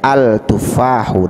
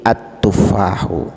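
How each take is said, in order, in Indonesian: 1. Artikelnya diucapkan dengan bunyi L yang jelas. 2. Bunyi L menyatu menjadi bunyi T ganda. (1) "Tidak boleh kita baca al-tufahu" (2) "Jadi at-tufahu"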